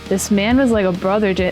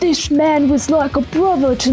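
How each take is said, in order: First: It is said in the speaker's ordinary accent. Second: It is said in a Cockney accent. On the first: The speaker calls it wrong. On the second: The speaker calls it right.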